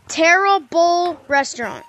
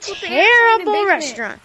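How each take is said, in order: First: The words are said slowly and clearly apart. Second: The words are said quickly and run together. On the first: It sounds like a restaurant name. "It's Tara Bowl Restaurant" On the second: It sounds like 'terrible restaurant'. "Even faster"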